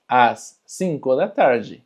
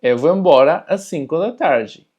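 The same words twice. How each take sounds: First: "Às cinco da tarde" slowed down for the learner; slow, careful model repeat of "Às cinco da tarde". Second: Higher, louder Portuguese model sentence; Portuguese sentence "Eu vou embora às cinco da tarde" in a bright model voice; Portuguese example. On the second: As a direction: read it out as a clear Portuguese model. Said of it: "yo me voy a ir a las cinco de la tarde". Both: Shown as a demonstration.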